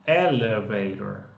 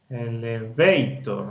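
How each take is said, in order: First: The stress is on the first syllable. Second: The stress is not on the first syllable. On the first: The speaker calls it right. "Esa es la fuerza, está en esa primera sílaba" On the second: The speaker calls it wrong.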